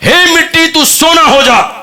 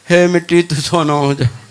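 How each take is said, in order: First: It is said with lively enthusiasm. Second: It is said flatly, without enthusiasm.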